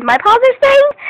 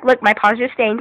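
First: High, loud excited repeat; excited squeal. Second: Said in the usual way. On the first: Real, not acted. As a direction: squeal it in delight.

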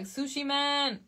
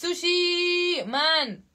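First: Said in the usual way. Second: "Sushi" stretched out long and raised, then "Man"; drawn-out SUSHI. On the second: Shown as a demonstration. Streamer correcting a fan's tag, "Sushi" drawn out long. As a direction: draw "Sushi" right out like a hype call. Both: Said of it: "No, it's Sushi Man".

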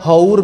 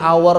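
First: "hour" sounded out as written, with the h; as spelled. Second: "hour" with silent h, like "awer"; English pronunciation. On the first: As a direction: say "hour" letter by letter, ho-ur. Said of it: "tulisannya hour bacanya hour". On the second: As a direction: drop the h in "hour". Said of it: "bacanya hour". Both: Shown as a demonstration.

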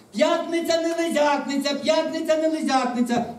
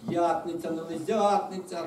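First: High, loud singsong announcement; calling out. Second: Slow, let-down chant at normal pitch; resigned, dragging recital; disappointed. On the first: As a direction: call it out over a crowd beyond the gate. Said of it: "за воріт вона гукнула". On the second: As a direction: repeat the rule glumly, drawing it out. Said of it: "розчаровано ревнуло кілька сотень". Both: A narrator's reading.

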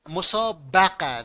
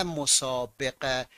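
First: مسابقه said slowly as mosābaqa with a at every step; correct vowel. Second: مسابقه said slowly as mosābeqe with e before q; wrong vowel. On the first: Teacher to students, slowly giving the right form. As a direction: spell out مسابقه slowly, musābaqa. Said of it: "پس باید بگه مفا". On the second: Teacher to students, slowly showing the wrong form. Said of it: "این غلطه". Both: Shown as a demonstration.

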